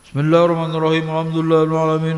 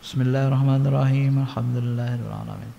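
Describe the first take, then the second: First: It is recited loudly. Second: It is recited quietly.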